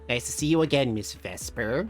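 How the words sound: It is said in a put-on bitchy voice.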